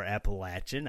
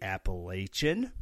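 First: "Appalachian" with LATCH-un at the end; short A. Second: "Appalachian" with LAY-shun in the third syllable; long A. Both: Shown as a demonstration. Two pronunciations offered with "or.

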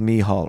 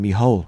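First: Said in the usual way. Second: Mihal said as "me hole"; mispronounced name. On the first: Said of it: "And I used to call him". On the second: Shown as a demonstration. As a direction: turn Mihal into a cheeky "me-hole". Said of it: "I used to call him Mihal".

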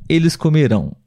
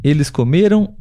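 First: COMERÃO stressed on the final RÃO; stress on last syllable. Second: COMERAM stressed on ME, ending light and nasal. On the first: Teacher contrasting future with past, final-syllable stress. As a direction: push the weight to the end of comerão. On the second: Teacher contrasting past with future, middle-syllable stress. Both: Shown as a demonstration. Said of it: "porém a sílaba tônica é diferente".

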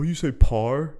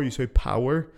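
First: "power" flattened into one syllable, like "par"; broad Belfast pronunciation. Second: "power" in two clear syllables, "pow-er"; softened pronunciation. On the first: Brother teasing a softened accent, "power" said as "par". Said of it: "I have to soften the accent". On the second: Brother mocking the podcast accent, "power" said as "pow-er". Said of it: "You sound like a wanker". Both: Retold or imitated.

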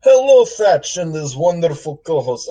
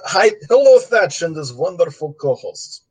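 First: Lightly voiced tough-guy gangster; a hint of an old-time mobster. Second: Put-on light Russian gangster accent; a hint of a Russian mobster accent. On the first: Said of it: "I'm gonna read this mailbag in a gangster voice". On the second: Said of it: "this is Russian gangster voice".

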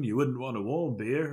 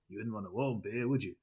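First: Said in the usual way. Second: Put-on a quick, half-hearted Australian accent, quieter; lightly mock an old Aussie beer ad in an Australian accent; attempted Australian accent. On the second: Quoting an old beer slogan to his co-host, in a rough Australian accent. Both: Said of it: "that's an attempt at an Australian accent".

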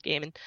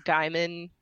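First: Gaiman said as GAY-mun; GAY-man pronunciation. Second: Gaiman said as GUY-mun; GUY-man pronunciation. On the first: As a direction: say Gaiman with a first syllable like "gay". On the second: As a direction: say Gaiman with a first syllable like "guy". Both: Real, not acted. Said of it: "Is it Gaiman or Gaiman".

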